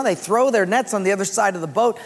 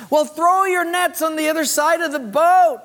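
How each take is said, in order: First: Said in the usual way. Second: High-pitched call across water. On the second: Acted. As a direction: call the instruction out to fishermen offshore. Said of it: "he calls out to the disciples".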